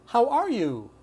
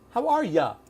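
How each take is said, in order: First: The last word is said as a full 'you'. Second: The last word is reduced to 'ya'.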